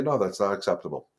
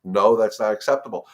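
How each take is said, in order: First: Firm no. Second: Firm command to the dog, a bit louder; a clear boundary, said with weight. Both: Shown as a demonstration. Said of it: "you're gonna say".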